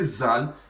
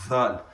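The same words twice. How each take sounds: First: The word begins with a buzzing z sound. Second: The word begins with a voiced th sound. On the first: The speaker calls it wrong. "then it means you are starting with Z, which is what which is incorrect" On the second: The speaker calls it right. "start with, with D H"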